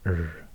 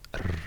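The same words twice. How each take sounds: First: The R is said like an English R. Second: The R is said unlike an English R. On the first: The speaker calls it right. "more like the how R is pronounced in English" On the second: The speaker calls it wrong. "It's not R"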